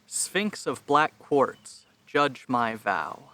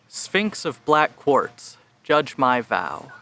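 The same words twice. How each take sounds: First: The voice is recorded at the lowest input level. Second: The voice is recorded at a moderate input level. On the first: "lowest levels" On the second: "at twenty-five percent capacity"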